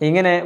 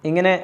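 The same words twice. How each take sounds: No difference in how they are said.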